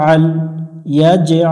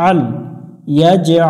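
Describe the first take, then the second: The two takes are said the same way.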